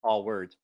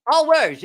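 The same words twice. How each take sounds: First: Said in the usual way. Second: All words said high and loud to settle it; host insisting on the exact hashtag, loud; stress on all words. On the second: Shown as a demonstration. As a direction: hit all words firmly. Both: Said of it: "all word, or all".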